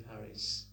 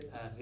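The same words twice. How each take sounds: First: Said in the usual way. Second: PARIS with uvular R and silent S; French pronunciation. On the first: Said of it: "They don't say Paris". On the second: Shown as a demonstration. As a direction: say PARIS as Pa-ree, French style. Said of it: "They say Paris".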